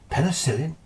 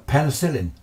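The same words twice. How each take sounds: First: A high questioning repeat of "Penicillin?" that rises at the end; baffled, rising "Penicillin?"; puzzled question. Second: Said in the usual way. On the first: Retold or imitated. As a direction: echo "Penicillin?" back in mild disbelief. Doctor puzzled by unknown word.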